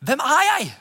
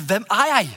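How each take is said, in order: First: «Hvem er jeg?» lifted higher, the question stressed; emphatic question. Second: Said in the usual way. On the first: Shown as a demonstration. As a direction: repeat «Hvem er jeg?» higher, pressing it home. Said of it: "det starter med hvem jeg er". («Hvem er jeg?» gjentatt høyere og ettertrykkelig) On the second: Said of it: "Det er å finne ut".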